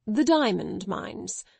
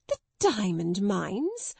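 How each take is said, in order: First: Said in the usual way. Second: Gasped. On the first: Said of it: "Mister Carmichael repeated". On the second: A narrator's reading. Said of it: "Miss Minchin gasped out".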